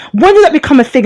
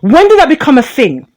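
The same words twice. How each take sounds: First: "did" pushed higher, indignant; emphatic repeat. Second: Said in the usual way. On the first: Real, not acted. Angry commentator repeats "did" higher, indignant. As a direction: hit "did" hard and high the second time.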